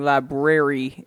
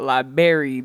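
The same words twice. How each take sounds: First: Both R sounds are clearly pronounced. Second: The first R sound is dropped. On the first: The speaker calls it right. "enunciate it real sweet for me, library" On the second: The speaker calls it wrong. "and not library"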